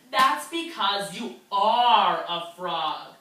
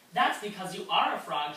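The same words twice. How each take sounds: First: Slow, louder, deliberate frog voice; slow firm frog reveal to guppy. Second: Said in the usual way. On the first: Acted. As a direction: lay it out slowly as the frog.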